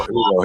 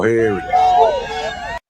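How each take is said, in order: First: Said in the usual way. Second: Very high and very slow, stretching go; drawn-out sing-song. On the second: Acted. Vlogger hyping arrival, high stretched sing-song.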